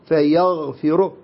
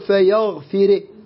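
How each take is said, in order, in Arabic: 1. تُنطق الراء النهائية مفخمة. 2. تُنطق الراء النهائية مرققة. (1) "فيغفر هكذا على التفخيم" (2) "لا نقول فيغفر"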